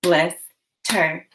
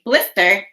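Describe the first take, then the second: First: "Blister" broken in two with a clear pause; split into chunks. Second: Said in the usual way. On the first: Shown as a demonstration. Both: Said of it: "Now say the chunks in blister".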